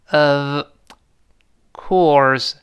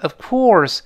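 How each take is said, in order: First: "Of" and "course" as two separate words; unlinked "Of ... course", each word alone; words kept separate. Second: "of course" run together as one word; "of course" joined, no gap; linked words. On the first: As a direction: say "Of", pause, then "course". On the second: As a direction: link "of" straight into "course". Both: Shown as a demonstration. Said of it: "连读变成of course".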